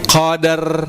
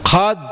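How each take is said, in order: First: A full vowel is heard between d and r. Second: The d bounces lightly with no added vowel. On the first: The speaker calls it wrong. "Jadi jangan sampai inna anzalnahu fi lailatul qadar" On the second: The speaker calls it right. "seperti ada e tapi itu pantulan daripada huruf dalnya"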